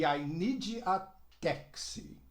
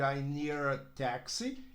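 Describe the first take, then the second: First: The d is pronounced as a separate d. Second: The d links into a quick r-like sound. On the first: The speaker calls it wrong. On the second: The speaker calls it right.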